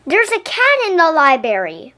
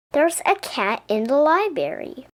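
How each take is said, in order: First: A loud, higher alarmed shout; a child yelling in alarm. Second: Said in the usual way. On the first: Acted. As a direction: call it out to the whole room. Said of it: "Someone shouted".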